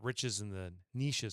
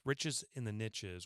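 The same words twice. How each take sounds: First: Niches does not rhyme with riches. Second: Niches rhymes with riches. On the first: The speaker calls it wrong. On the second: The speaker calls it right.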